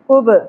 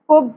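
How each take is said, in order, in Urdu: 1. آخری b گونجدار جھٹکے کے ساتھ ادا ہوتی ہے۔ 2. آخری b بغیر جھٹکے کے سپاٹ رکتی ہے۔ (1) "ہلاتے ہوئے پڑھنا ہے" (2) "کب نہیں پڑھنا"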